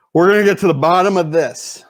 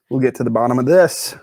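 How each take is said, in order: First: Mock determination. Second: Said in the usual way. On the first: Repeats the line as mock declaration.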